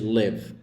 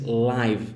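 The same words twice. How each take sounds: First: The vowel is a short 'i' sound. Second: The vowel is not a short 'i' sound. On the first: The speaker calls it right. "escrever L I V entre parênteses" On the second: The speaker calls it wrong. "você sempre diz live em vez de"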